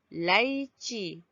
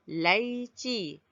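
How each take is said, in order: Both takes have the same delivery.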